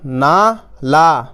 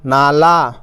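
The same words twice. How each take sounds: First: Very slow, long "ना", pause, long "ला"; teacher stretching "ना ... ला" in two parts; syllables sounded separately. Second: "नाला" joined up, both vowels long; teacher reading "नाला" as one word; syllables blended. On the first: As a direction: hold "ना" and "ला" apart. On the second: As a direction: run a held "ना" straight into "ला". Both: Shown as a demonstration. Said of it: "दोनों में आ की मात्रा".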